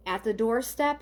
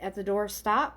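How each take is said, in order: First: DOORSTEP ending in "step", questioning rise; tentative "doorstep", testing the word; sounding out doorstep. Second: DOORSTOP ending in "stop", questioning rise; tentative "doorstop", testing the word; sounding out doorstop. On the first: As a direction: sound out "doorstep" with an E in the last syllable. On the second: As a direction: sound out "doorstop" with an O in the last syllable. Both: Shown as a demonstration. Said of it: "I'm hearing something like doorstop or doorstep".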